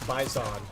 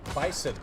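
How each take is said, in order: First: It is said with a strong, prominent Z sound. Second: It is said like the animal, with an S. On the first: The speaker calls it right. "the Z is like very prominent" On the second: The speaker calls it wrong. "like the animal"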